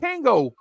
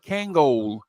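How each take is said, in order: First: The word ends without an L sound. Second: The word ends with a clear L sound. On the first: This is how the speaker's community said it. "we call it Kango" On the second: This is how the formal shops said it. "in a tuxedo place they used to call it Kangol"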